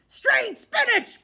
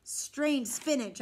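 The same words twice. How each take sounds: First: Much higher, louder and slow on Strange spinach; shocked pirate shout. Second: Said in the usual way. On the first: A narrator's reading. Pirate repeating the boy's words in outrage. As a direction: bellow Strange spinach in disbelief. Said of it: "Braidbeard said". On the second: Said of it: "I told him".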